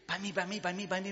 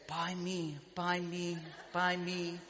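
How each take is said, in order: First: It is said very quickly. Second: It is said at a normal pace.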